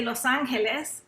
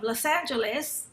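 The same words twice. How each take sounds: First: Los Angeles in Spanish, "lohs AHN-heh-les"; Spanish-accented Los Angeles; Spanish pronunciation. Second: Said in the usual way. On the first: Shown as a demonstration. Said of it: "I should say". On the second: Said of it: "I should say Los Angeles".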